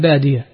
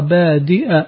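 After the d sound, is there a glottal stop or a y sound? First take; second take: y sound; glottal stop. First: A y sound follows the d sound. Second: A glottal stop follows the d sound. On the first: "والباقون بياء مفتوحة بعد الدال" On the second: "يحرك الياء التي بعد الدال يجعلها همزة"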